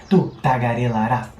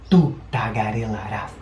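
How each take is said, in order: No difference in how they are said.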